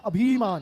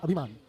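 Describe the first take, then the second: First: अभिमान with a stretched "bhee"; wrong long middle vowel. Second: अभिमान with a brief "bhi"; correct short middle vowel. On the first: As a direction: say अभिमान as "a-bheee-maan". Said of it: "इसको बोलते हैं अभिमान". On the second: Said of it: "ये होता है अभिमान". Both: Shown as a demonstration.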